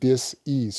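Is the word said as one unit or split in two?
split. The word is split into two separate parts. The person is no longer at ease. "that's the reason you hear me say it that way"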